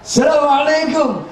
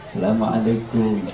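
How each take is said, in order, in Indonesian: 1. Salamnya diucapkan dengan keras dan nada tinggi. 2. Salamnya diucapkan dengan tenang dan nada lebih rendah. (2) "Kalau di kita"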